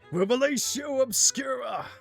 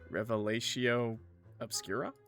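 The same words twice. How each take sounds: First: It is said fast and forcefully. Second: It is said slowly and carefully.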